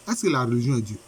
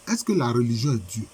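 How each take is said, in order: Both takes have the same delivery.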